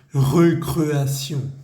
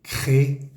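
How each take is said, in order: First: Recreación with Spanish-style rolled vowels, slow and loud; the way not to say recreación; deliberate wrong recreación; wrong pronunciation. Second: Recreación as French ré-cré-a-sion, with the syllable sion; the correct French recreación; French pronunciation. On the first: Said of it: "yo no digo". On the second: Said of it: "yo digo". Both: Shown as a demonstration.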